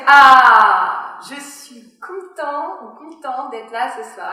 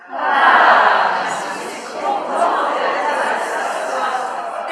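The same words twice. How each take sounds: First: Said in the usual way. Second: Breathy, wide-open airy tone, slowly; open false vocal folds. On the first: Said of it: "si vous faites". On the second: Shown as a demonstration. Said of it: "vous avez ouvert en grand vos fausses cordes vocales".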